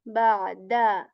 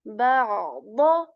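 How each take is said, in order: First: It ends with a light d sound. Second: It ends with a heavy emphatic d sound. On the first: The speaker calls it wrong. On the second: The speaker calls it right.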